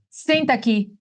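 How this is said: It is said in a stern, sharp tone. Something bad is coming.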